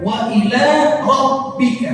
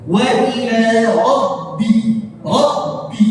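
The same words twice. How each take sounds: First: "Rabbika" with b hardened to p, like rop-pika; higher-pitched "Rabbika" with a p sound for b; wrong reading demo. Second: Slow, higher "Rabbi" with voiced double b; correct reading. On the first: Teacher shows students what to avoid, "Rabbika" said with p. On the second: Teacher models it for students, careful "Rabbi" with voiced b. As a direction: hold the b in "Rabbi", keeping it voiced. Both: Shown as a demonstration. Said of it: "Jangan dibaca".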